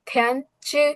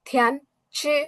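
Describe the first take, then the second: The two takes are said the same way.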